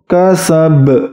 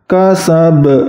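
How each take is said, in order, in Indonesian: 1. Konsonan akhir memiliki pantulan yang berat dan tertekan. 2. Konsonan akhir memiliki pantulan yang berat dan tertekan.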